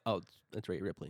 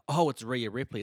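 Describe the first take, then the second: First: It sounds flat and unimpressed. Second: It sounds excited and impressed.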